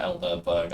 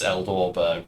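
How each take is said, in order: First: The second syllable has an 'er' vowel. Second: The second syllable has an 'o' vowel. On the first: The speaker calls it wrong. "not Elderberg" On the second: The speaker calls it right. "it's Eldorberg"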